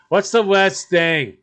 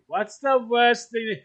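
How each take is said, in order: First: Loud and slow, much higher; teasing. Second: High-pitched, slow and loud again; teasing. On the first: Teasing his partner about dog poop, loud and slow. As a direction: drag out the taunt, loudly and slowly. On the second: Repeating the taunt to his partner, high and slow. Teasing about dog poop. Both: Real, not acted.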